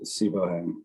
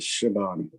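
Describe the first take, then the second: First: The name is said as three syllables, Sibohan. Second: The name is said as two syllables, Shaban. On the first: The speaker calls it wrong. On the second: The speaker calls it right. "that one is uh"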